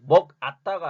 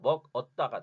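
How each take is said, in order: First: The second syllable has the vowel 'a'. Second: The second syllable has the vowel 'eo'. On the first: The speaker calls it wrong. "먹 아따가 아니라" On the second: The speaker calls it right. "먹 얻다가 되는 거죠"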